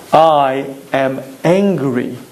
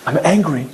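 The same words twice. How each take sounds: First: Low and very slow, each word weighed; slow self-admission. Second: Said in the usual way. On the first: Shown as a demonstration. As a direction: admit it slowly, deliberately, to yourself. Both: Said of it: "knowing the following yesod".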